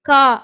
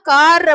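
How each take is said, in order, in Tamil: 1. கடைசி R ஒலி மௌனமாக இருக்கும். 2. கடைசி R ஒலி உச்சரிக்கப்படும். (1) "இங்க ஆர் வந்து சைலண்டா வரும்" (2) "கார் அப்படின்னு இங்கிலீஷ்ல நம்ம படிக்க மாட்டோம்"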